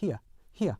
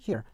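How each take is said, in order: First: "here" as "hi-uh"; British "here", ending in weak schwa. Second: "here" with R sounded; American "here", r-coloured ending. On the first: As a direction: say "here" British-style, a diphthong with no R. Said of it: "영국 표준 영어에서는". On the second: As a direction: say "here" American-style, single vowel plus R. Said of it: "일반 미국 영어에서는". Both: Shown as a demonstration.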